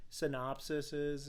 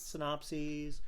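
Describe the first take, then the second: First: Synopsises said with an extra syllable, sə-NOP-si-siz; mispronounced plural. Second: Synopses said as sə-NOP-seez, three syllables; Synopses, said softly and correctly; corrected pronunciation. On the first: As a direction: stumble into synopsises, four syllables. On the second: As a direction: fix it to Synopses, ending in -seez. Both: Real, not acted.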